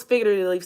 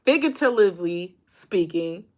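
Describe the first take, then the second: First: "figuratively" garbled and clipped to "figurely"; "figuratively" slurred into "sfigurely"; fumbled word. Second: "figuratively speaking" said carefully in full, every syllable there; "figuratively" fixed on the retry, fully spelled out in sound. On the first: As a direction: trip over "figuratively", swallowing the middle. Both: Real, not acted. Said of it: "I knew I was gonna mess up her word up".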